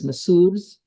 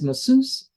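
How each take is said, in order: First: The word is said with its original pronunciation. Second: The word is said with an American pronunciation. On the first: "The actual uh, pronunciation, I think, is masseuse" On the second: "In America, we pronounce M A S S E U S E as masseuse"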